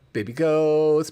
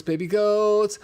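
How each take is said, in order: First: Excited. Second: Higher and louder gushing; excited squeal. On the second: Host gushing at baby goats on screen, higher and louder. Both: Real, not acted. Cooing over goat video.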